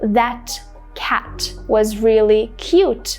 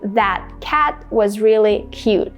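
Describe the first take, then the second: First: The T sounds are fully released. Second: The T sounds are stopped, not released. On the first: The speaker calls it wrong. "instead of saying" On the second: The speaker calls it right. "this is a stopped T"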